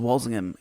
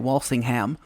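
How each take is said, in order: First: The name is said in the English pronunciation. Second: The name is said in a non-English pronunciation. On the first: "it's Walsingham if you're English" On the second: "We might say Walsingham"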